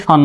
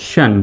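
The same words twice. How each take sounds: First: Said in the usual way. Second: শান blended as "shyan", not a straight "shan"; pronunciation model. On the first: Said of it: "সরাসরি শান নয়". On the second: Shown as a demonstration. Teacher correcting a too-straight ending, modelled pronunciation. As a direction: glide from sh into the vowel of শান. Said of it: "এরকম শান".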